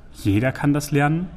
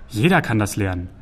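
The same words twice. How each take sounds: First: "Jeder kann das lernen" rising as a question; double-check doubtfully, lifting the end of "lernen"; probing question. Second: Low, reassuring falling statement; soothing statement. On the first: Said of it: "hakte Druan nach". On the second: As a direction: reassure calmly and settle the matter. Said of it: "beschwichtigte Sagan den Troll". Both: A narrator's reading.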